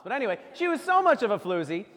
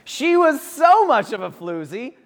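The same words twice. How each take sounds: First: Said in the usual way. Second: "so" stretched high and slow; a stretched, rising "so" for comic build; stress on so. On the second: Acted. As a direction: lean hard on "so", drawn out.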